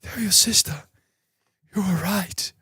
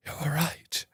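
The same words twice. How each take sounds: First: High, strained last words of a dying Vader; dying Darth Vader. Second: Much softer, dying away on the last words; fading Darth Vader. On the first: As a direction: gasp it out like Vader at the end of Jedi. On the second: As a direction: let the repeat fade to almost nothing. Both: Retold or imitated. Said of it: "before I end up like Darth Vader".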